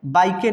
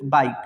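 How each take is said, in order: First: "बाइकें" with the final E voiced; wrong reading. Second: "बाइक" with the final E silent; correct reading. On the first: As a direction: say "बाइकें" as bai-ke, adding an e at the end. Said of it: "नहीं पढ़ेंगे इसको". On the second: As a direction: stop "बाइक" right on the k. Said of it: "सिर्फ बाइक". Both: Shown as a demonstration.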